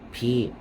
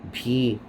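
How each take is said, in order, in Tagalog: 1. Nagsisimula ang pantig sa tunog na parang p, walang tinig. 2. Nagsisimula ang pantig sa tunog na parang p, walang tinig.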